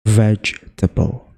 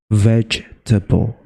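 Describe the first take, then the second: First: The word is said with three syllables. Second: The word is said with three syllables.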